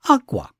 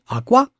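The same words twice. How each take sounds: First: The first syllable is high, the second low. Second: The first syllable is low, the second high. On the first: The word means cloth. "If the first syllable is high and the second syllable is low" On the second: The word means egg. "low in the first syllable and high on the second one"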